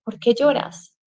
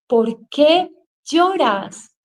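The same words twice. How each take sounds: First: Said in the usual way. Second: Slow, higher, drawn-out scolding of herself; stretched-out rebuke to herself; self-scolding. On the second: Retold or imitated. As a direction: scold yourself slowly, word by word. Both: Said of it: "me regañaba a mí misma diciéndome".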